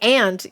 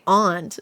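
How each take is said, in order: First: It sounds just like the insect word ant. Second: It sounds different from the insect word ant. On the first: It could be confused with the insect. The speaker calls it wrong. "is it the bug or is it like the family member?" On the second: It cannot be confused with anything else. The speaker calls it right. "you can't really confuse that with anything else"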